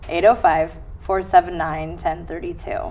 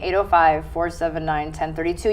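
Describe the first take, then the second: First: The number is said more slowly. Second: The number is said at normal speed.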